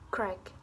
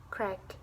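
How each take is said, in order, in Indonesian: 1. Vokal suku kata pertama hilang sepenuhnya. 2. Vokal suku kata pertama hilang sepenuhnya.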